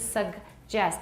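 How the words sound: A g sound comes before the j. This is the American way. "美式是 suggest. 第一个是 g, 第二个是 j"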